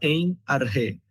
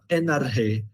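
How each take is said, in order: First: The two words are said separately. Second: The two words are run together as one. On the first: The speaker calls it wrong. "você não fala em arre" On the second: The speaker calls it right. "você fala enarre"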